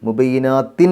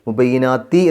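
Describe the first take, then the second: First: The word ends with an audible N sound. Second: The word ends on a vowel without N. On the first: The speaker calls it wrong. "എന്ന് പറയാതെ" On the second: The speaker calls it right. "എന്ന് പറയാം"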